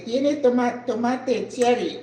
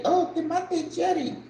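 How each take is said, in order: First: Spanish pronunciation of tomate cherry; "tomate cherry" with Spanish vowels; Spanish phrase. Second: Higher, savoring "tomate cherry" in Spanish; bright Spanish "tomate cherry"; Spanish word order. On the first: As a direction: say "tomate cherry" the Spanish way, toh-MAH-teh. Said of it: "So I have to say". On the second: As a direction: repeat "tomate cherry" lightly with Spanish vowels, toh-MAH-teh. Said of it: "That's how they say it in Spanish". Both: Shown as a demonstration.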